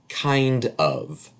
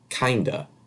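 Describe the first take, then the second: First: Both words are said fully and separately. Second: The words blend into one reduced word. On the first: The speaker calls it wrong. "We don't say that" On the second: The speaker calls it right. "we say"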